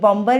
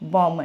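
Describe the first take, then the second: First: A B sound is heard in the middle. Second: No B sound is heard in the middle. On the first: The speaker calls it wrong. "ये बॉम्बर नहीं है" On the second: The speaker calls it right. "ये क्या है, बॉम्बर है"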